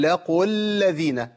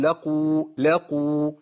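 First: لقوا الذين linked straight into the doubled l; joined, waw dropped. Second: لقوا ending on a full long oo; pausal long vowel. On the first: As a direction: drop the long oo of لقوا into الذين. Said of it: "طب عند الوصل هقول". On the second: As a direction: stop on لقوا with the final oo held. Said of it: "عند الوقف هقول". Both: Shown as a demonstration.

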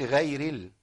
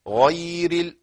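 First: «غير» softer, with a thinned ghayn vowel; wrong ghayn vowel. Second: «غير» with a full, heavy open vowel on ghayn. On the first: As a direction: say «غير» wrongly, its غ light and fronted. («غير» بغين مرققة خطأ) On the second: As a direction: model «غير» with a dark fatha on غ. («غير» بغين مفتوحة مفخمة) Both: Shown as a demonstration. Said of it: "ما تقولش غير ال".

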